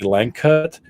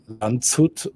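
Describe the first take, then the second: First: The name is read with English letter sounds. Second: The name is read with German letter sounds. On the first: "in English, probably" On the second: "in German, I would probably say"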